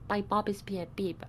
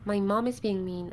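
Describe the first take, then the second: First: It is said with no nasal sounds, like a cold. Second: It is said with normal nasal sounds.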